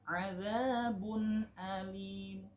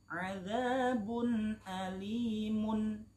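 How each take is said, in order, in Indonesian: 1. Kata terakhir berakhir dengan 'mu' yang singkat dan samar. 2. Kata terakhir berakhir dengan 'mun' yang penuh dan jelas. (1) "tidak mun, tidak, tapi cukup mu, namun hanya sepertiga harokat, suaranya hanya lirih" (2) "itu adalah akhirnya dhammah tanwin"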